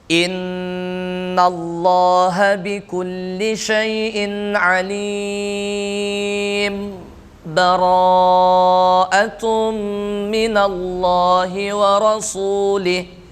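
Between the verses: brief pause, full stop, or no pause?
brief pause. It pauses briefly without breathing between verses. "dengan saktah, berhenti sejenak tanpa bernapas"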